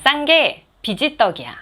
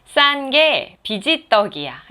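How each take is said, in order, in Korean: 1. 이 말은 급하고 준비 없이 빠르게 말합니다. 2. 이 말은 숨을 고른 뒤 천천히 조심스럽게 말합니다. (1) "갑자기 이야기를 하려고 하면은 이 단어 자체가 익숙지 않기 때문에 꼬일 수가 있어요" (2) "숨을 가다듬고 꼬일 거에 대비해서"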